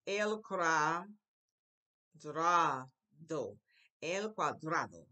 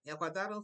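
First: "El cuadrado" loud and syllable by syllable, with long gaps; broken into syllables. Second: Said in the usual way. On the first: Shown as a demonstration. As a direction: model "El cuadrado" slowly in separate chunks. Teacher models a new word.

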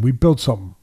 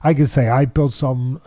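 First: "We built something" with the weight on "We"; stress on we. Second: "I built something" with the weight on "I"; stress on I. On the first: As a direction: lean on "We", the team built it. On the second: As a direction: lean on "I", claiming it alone. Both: Shown as a demonstration. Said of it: "No, that would be wrong".

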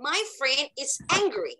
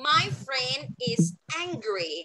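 First: "My friend is angry" run together without waiting; quicker model sentence. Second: Slow, word-by-word "My friend is angry"; slow model sentence. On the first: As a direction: say "My friend is angry" briskly as one phrase. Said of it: "เราพูดเร็วๆเลยค่ะ". (พูดต่อกันเร็ว ๆ ไม่ต้องรอเพื่อน) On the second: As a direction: model "My friend is angry" slowly for learners to repeat. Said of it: "พูดตามมิส[name]นะคะ". (พูดช้า ๆ ทีละคำให้พูดตาม) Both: Shown as a demonstration.

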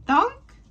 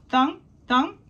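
First: "thunk" much higher and louder, rising; big final thunk. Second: "thunk, thunk" higher, bouncy, landing sounds. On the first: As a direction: finish the run with one high, loud "thunk". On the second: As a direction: drop each "thunk" like an egg hitting grass. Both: A narrator's reading. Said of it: "landing on lawns with thunk".

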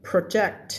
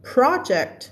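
First: "project" with weight on the second syllable, pro-JECT; stress on JECT. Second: "project" higher on the first syllable, PRO-ject; stress on PRO. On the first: Teacher contrasting verb with noun, "project" stressed on JECT. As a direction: hold back PRO, land on JECT in "project". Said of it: "คำนี้ทำหน้าที่เป็น verb". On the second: Teacher contrasting noun with verb, "project" stressed on PRO. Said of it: "อันนี้เป็นคำนาม". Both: Shown as a demonstration.

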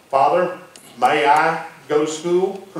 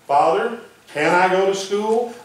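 First: MAY drawn out in a slow, polite question; stress on MAY. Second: Higher-pitched question leaning on CAN; stress on CAN. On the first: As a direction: ask slowly, leaning on "may" to seek permission. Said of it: "May is a word of permission". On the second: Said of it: "That's a word of ability". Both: Shown as a demonstration.

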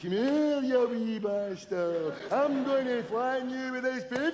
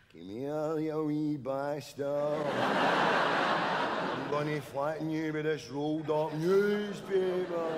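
First: Higher, louder, slow and mangled, as if the tongue is swollen; slurred swollen-tongue ghost voice; stung-tongue ghost. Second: 1 slow ghostly voice. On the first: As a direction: talk like a bee stung your tongue. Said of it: "That's him stung in the tongue". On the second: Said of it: "Then a voice". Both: Retold or imitated.

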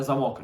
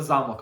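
First: Замок with stress on the last syllable, за-МОК; lock stress. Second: Замок with stress on the first syllable, ЗА-мок; castle stress. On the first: Player explaining the drawing to viewers, stress on МОК in замок. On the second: Player explaining the drawing to viewers, stress on ЗА in замок. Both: Shown as a demonstration. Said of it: "нам потрібно намалювати замок, а не замок".

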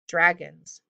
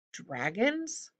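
First: Said in the usual way. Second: Hushed, horrified echo with a long rise; horrified question. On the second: A narrator's reading. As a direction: repeat it softly in horror, pitch climbing. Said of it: "Jared repeated in horror".

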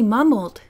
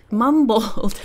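First: Said in the usual way. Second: MUMBLED drawn out, "mum-bowld"; exaggerated echo. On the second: Real, not acted. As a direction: lean on a swallowed L in "Mumbled". Echoes word in odd pronunciation.

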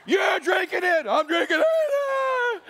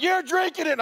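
First: Very high, slow, loud shouted order; angry dad shout. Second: High, loud stern order; stern command. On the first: Moses roaring at the camp, furious dad shout. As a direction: yell it like a furious dad with a popping vein. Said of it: "Moses just went dad". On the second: Moses ordering the Israelites to drink the powder, loud stern command. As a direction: bark the order like an angry dad. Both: Acted.

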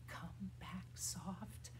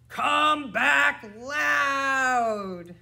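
First: Near-whispered call; soft. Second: High, full-out shout; loud. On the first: Teacher calling the bird named Soft back, whispery soft. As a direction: barely voice it, very gently. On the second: Teacher calling the bird named Loud back, shouting. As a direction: holler it with a long last word. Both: Shown as a demonstration.

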